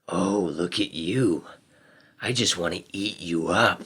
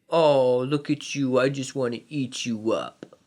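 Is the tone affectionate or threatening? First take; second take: threatening; affectionate. First: It sounds low, harsh and threatening. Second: It sounds high, smooth and affectionate. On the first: The speaker is a danger to the kitten. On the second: The speaker adores the kitten.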